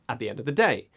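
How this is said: The words run together as one smooth chunk. The speaker calls it right. "No, we say at the end of the day. This is chunking"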